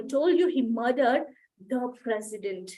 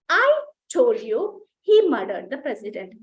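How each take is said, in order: First: The stress falls on the word president. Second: The stress falls on the word I. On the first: The victim was the president, not someone else. "ఎవర్ని చంపాడు? Gardner ని చంపలేదు, president ని చంపాడు" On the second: It was the speaker who said it. "Stress is on I"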